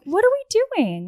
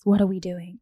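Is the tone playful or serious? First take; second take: playful; serious. First: It is said in a light, playful tone. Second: It is said in a serious, heavy tone. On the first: The question feels casual and low-pressure. The speaker calls it right. "Just say it in a way where it's like playful" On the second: The question feels like pressure for an answer. The speaker calls it wrong. "Don't like sit him down and be like"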